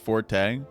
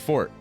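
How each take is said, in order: First: The word is said with two syllables. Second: The word is said with one syllable. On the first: This is how most people say it. The speaker calls it wrong. "Everyone pronounces it forte" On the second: This is the supposedly correct form. The speaker calls it right. "the right pronunciation is fort"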